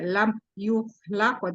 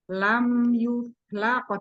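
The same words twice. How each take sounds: First: The sounds are clipped and said too quickly. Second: Each sound is given its full length. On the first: The speaker calls it wrong. "tidak terlalu cepat" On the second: The speaker calls it right. "Jadi sempurnakan"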